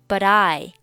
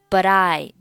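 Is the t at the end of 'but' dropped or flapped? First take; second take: flapped; flapped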